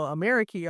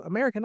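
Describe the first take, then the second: First: "Ameriky" ending in a long, falling -kee; "Ameriky" as the Arabic word; Arabic pronunciation. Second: Said in the usual way. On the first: Shown as a demonstration. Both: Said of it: "how to pronounce it in Arabic".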